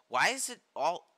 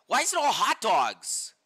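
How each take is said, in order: First: Said in the usual way. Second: Louder, slower exasperated question. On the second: Real, not acted. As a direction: demand it in disbelief.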